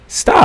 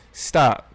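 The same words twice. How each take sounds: First: A much louder second Stop. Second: Said in the usual way. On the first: Real, not acted. Host ordering listeners to quit it, loud. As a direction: cut them off hard with Stop.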